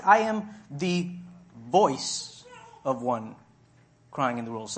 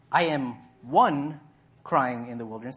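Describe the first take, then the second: First: "voice" set apart by pauses on each side; stress on voice. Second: Said in the usual way. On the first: Shown as a demonstration. Preacher correcting the misquote, stressing "voice". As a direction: pause before and after "voice" and lean on it. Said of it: "He said". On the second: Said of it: "He didn't say".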